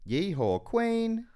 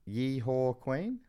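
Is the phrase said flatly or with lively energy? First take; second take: lively; flatly. First: The phrase is said with lively, performed energy. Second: The phrase is said plainly, without much energy. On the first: "but like perform it" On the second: "Yeah, but like perform it"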